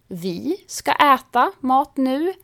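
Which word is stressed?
vi. The stress is on the word vi. It is us, not anyone else, who will eat. "betyder vi ska äta mat nu, men inte ni eller några andra"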